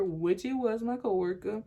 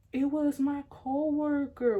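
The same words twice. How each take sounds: First: Said in the usual way. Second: Higher, slow, drawn-out explanation; acted placating answer. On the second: Girlfriend explaining the text to boyfriend, acted placating. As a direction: answer him slowly and high, to placate.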